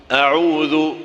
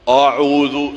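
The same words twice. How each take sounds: First: A'udhu with a clear ʕain, /aʕuðu/; correct A'udhu. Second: A'udhu without the ʕain, /uðu/; wrong A'udhu. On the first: Teacher giving the right take. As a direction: open the throat on A'udhu. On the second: Teacher showing the wrong way. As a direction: drop the throat sound in A'udhu. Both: Shown as a demonstration.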